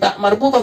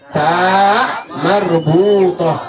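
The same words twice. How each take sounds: First: The first vowel is said short. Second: The first vowel is drawn out long. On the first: The speaker calls it wrong. "Bukan tak marbutoh" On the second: The speaker calls it right.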